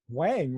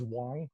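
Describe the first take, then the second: First: The name is said with an English-style pronunciation. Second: The name is said with a Mandarin pronunciation. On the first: This is how most people say it. The speaker calls it wrong. "most people would pronounce it Wang" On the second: This is how it is said in the original language. The speaker calls it right. "The way that it's pronounced in Mandarin is Wang"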